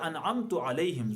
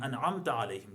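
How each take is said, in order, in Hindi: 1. पहला शब्द 'u' स्वर पर खत्म होता है। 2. पहला शब्द 'a' स्वर पर खत्म होता है। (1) "ज़बर को पेश से बदल दिया" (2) "जिन पर आपने इनाम किया"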